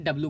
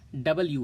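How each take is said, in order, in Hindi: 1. अक्षर का नाम संक्षिप्त रूप में बोला गया है। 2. अक्षर का नाम पूर्ण रूप में बोला गया है। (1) "नॉर्मली हम इसे डब्ल्यू कहते हैं" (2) "इसका सही प्रोनाउंसिएशन डब्ल्यू है"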